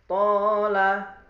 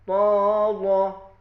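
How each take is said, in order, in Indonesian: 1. L-nya tipis dan ringan. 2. L-nya tebal dan berat. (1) "tarkik biasa" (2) "kalau taglid"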